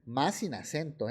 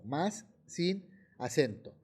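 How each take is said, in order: First: Said in the usual way. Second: "más sin acento" slowed right down, word by word; emphatic repetition. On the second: Shown as a demonstration. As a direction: pause around "sin" to drive home "más sin acento". Teacher repeats the warning after "Ojo. ("más sin acento" recalcado, despacio, palabra por palabra)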